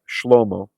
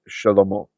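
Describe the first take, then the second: First: The sh and l run together with no vowel. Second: A short vowel is heard between sh and l. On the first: This is how the name is said in modern Israel. "in Israel today they'll just say Shlomo" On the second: This is how the name was said in biblical times. "it's a vocal schwa. So we will do it as it was in biblical times"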